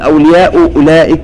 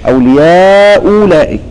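First: The second hamza is pronounced as a full stop. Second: The second hamza becomes a plain waw sound. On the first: "لا تقل" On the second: "ابدلانها واوا"

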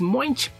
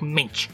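First: The o vowel is pronounced in the name. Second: The o vowel is silent in the name. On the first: The speaker calls it wrong. "que no es Moench" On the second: The speaker calls it right. "la O no se pronuncia, es Doc Moench"

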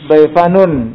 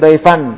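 First: The word ends with a voweled nun, 'anun'. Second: The word ends with a silent nun, 'an'. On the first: The word runs on into the next word. "kalau disambung daifanun berharokat" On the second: The word is the last one before a stop. "kalau diwaqafkan emang dia sukun kan daifan"

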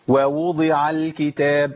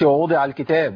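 First: Two separate waw sounds begin the phrase. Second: Only one waw sound begins the phrase. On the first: The speaker calls it right. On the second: The speaker calls it wrong.

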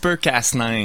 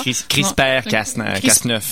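First: The term is pronounced the English way. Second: The term is pronounced the French way.

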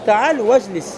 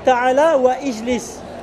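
First: The words are run together with a liaison. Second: The words are said separately without linking. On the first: The speaker calls it right. "Si tu veux bien parler, tu diras quoi ?" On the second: The speaker calls it wrong. "Tu diras pas ta'ala ou ijlis"

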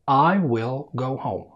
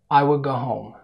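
First: The sentence is spoken slowly and carefully. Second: The sentence is spoken at a normal speed. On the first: "السرعة الهادية في الكلام" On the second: "السرعة الطبيعية"

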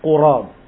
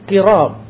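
First: The first vowel is u. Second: The first vowel is i. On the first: "didhammahkan di huruf qaf" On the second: "dibacanya dengan kasrah"

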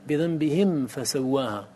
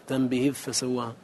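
First: The m sound is clearly pronounced before f. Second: The m sound is merged or hidden before f. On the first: The speaker calls it right. "بل حكمها البيان في الأداء" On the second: The speaker calls it wrong. "ولا تقول ... أو تخفي"

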